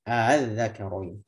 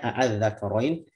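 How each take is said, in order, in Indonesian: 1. Hamzah kedua dilunakkan menuju vokal. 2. Hamzah kedua diucapkan penuh dan jelas. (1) "dibaca dengan"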